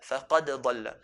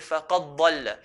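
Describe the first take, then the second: First: The d sound is pronounced separately and clearly. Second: The d sound merges into the following letter. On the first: The speaker calls it right. "We don't merge the dal onto the dad, but" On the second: The speaker calls it wrong. "we don't say"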